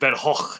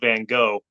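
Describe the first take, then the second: First: It is pronounced the Dutch way. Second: It is pronounced the American way. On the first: "they pronounce it Van Gogh" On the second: "I say it the way Americans say it"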